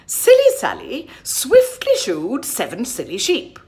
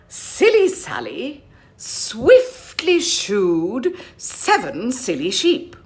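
First: It is said at a faster pace. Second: It is said at a normal pace.

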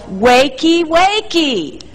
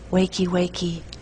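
First: It is yelled loudly. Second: It is said quietly and timidly.

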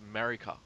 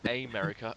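First: The word is said without its first vowel. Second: The word starts with a clear first vowel. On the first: The speaker calls it right. "You don't pronounce the A" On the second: The speaker calls it wrong. "It's not America"

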